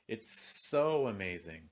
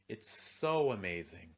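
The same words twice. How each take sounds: First: The stress falls on the word so. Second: The stress falls on the word so.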